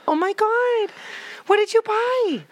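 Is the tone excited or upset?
excited. It sounds excited and delighted.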